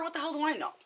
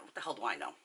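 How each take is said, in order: First: High-pitched exasperated retort; retold indignant protest, pitched way up; acted exasperation. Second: Low, soft throwaway question; understated shrug of a question; dismissive aside. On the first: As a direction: throw the question up high, exasperated. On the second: Retold or imitated. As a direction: toss it off quietly, pitch dropping. Dismissive aside after retold order.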